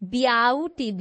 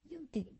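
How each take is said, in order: First: The first vowel sounds like 'yow'. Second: The first vowel sounds like 'yoo'. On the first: The speaker calls it wrong. "ब्याउटी तो नहीं हम बोलते" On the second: The speaker calls it right. "B E के बाद ए silent हो जाता है"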